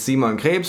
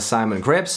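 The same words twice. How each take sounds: First: It is said with a German accent. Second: It is said with an American accent.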